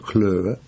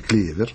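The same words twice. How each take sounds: First: It is said like the English word. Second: It is said like the Russian word. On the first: It means smart. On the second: It means the clover plant.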